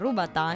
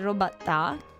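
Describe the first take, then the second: First: The first vowel sounds like a 'u'. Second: The first vowel sounds like an 'o'. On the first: The speaker calls it right. "si pronuncia rubatà" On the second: The speaker calls it wrong. "infatti ho appena sbagliato"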